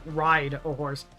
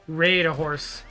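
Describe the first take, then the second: First: The vowel in ride sounds plain and unraised. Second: The vowel in ride sounds raised, Canadian-like.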